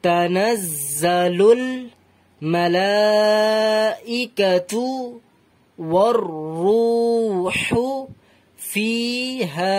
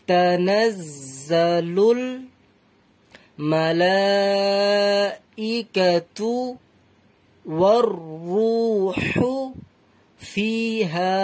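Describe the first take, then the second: First: Slow Quran recitation with long held vowels; measured, drawn-out teaching recitation. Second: Extremely slow, drawn-out Quran recitation; very unhurried recitation with long breaks between words; even slower recitation. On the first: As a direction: recite phrase by phrase, stretching the endings. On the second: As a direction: linger on every syllable and long vowel. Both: Shown as a demonstration. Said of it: "আরো ধীরে ধীরে পড়তে পারেন".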